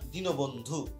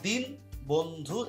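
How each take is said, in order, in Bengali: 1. একটি o স্বরধ্বনি দুই অংশকে যুক্ত করে: dinobondhu. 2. প্রথম অংশটি স্বরধ্বনি ছাড়া শেষ হয়: din bondhu. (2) "এই দিন বন্ধু এরকম না"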